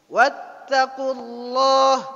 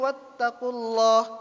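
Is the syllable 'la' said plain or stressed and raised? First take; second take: stressed; plain. First: The syllable 'la' is stressed and raised in pitch. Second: The syllable 'la' is plain, not raised. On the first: The speaker calls it right. "La-nya di, dikuatkan, diangkat intonasinya" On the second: The speaker calls it wrong. "Salah, tidak sempurna"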